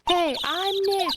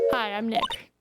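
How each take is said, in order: First: It is said louder. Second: It is said at a normal, quieter volume.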